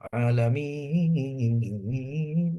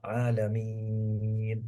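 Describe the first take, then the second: First: The long vowel moves up and down in pitch. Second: The long vowel is held at one steady pitch. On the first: The speaker calls it wrong. "Ada orang karena langgam, disebabkan langgam" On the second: The speaker calls it right. "Ini mat yang normal"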